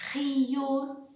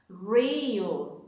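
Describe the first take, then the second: First: The first sound is a breathy H-like sound. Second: The first sound is an English-style R. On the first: The speaker calls it right. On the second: The speaker calls it wrong.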